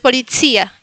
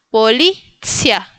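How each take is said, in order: First: The stress falls on the later syllable. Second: The stress falls on the middle syllable. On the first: The speaker calls it wrong. "No pongan acentos, no es policía" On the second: The speaker calls it right. "pónganlo en el medio, en la sílaba de en medio"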